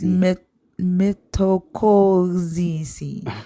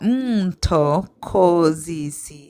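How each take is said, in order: First: The name begins with a 'mith' sound. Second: The name begins with an 'mto' sound. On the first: The speaker calls it wrong. "Did I get it right?" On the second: The speaker calls it right. "Is that right? ... Yes"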